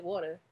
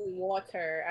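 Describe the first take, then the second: First: Said in the usual way. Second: Water with its R sounded, as wa-ter; rejected pronunciation. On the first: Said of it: "I said water". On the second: Retold or imitated. Denying they pronounce the E and R, rejected pronunciation. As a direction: say water with a full ending. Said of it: "I did not just say".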